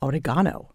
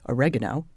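First: Oregano is said with a British pronunciation. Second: Oregano is said with an American pronunciation. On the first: This is how the British author says it. "he says oregano" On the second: This is how the reviewer's own side says it. "We say oregano"

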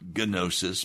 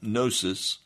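First: The initial G is pronounced. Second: The initial G is silent. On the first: "Some people pronounce it gnosis" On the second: "in the Greek, the G is silent"

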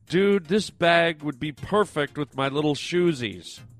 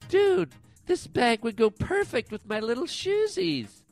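First: It is read in his normal voice. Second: It is said in Roberta's character voice.

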